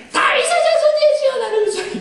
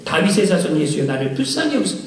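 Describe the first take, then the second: First: A much higher, pleading call; desperate cry out. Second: Said in the usual way. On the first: Retold or imitated. Blind beggar crying out to Jesus over the crowd, high pleading call. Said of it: "그보다 더 큰 소리로 얘기한 거예요". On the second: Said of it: "더욱 크게 소리 질러 이르되".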